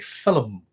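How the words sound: It is said with a Northern Irish pronunciation. "the way I say film ... it's a Northern Irish quality"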